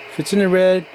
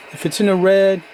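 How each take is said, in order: Both takes have the same delivery.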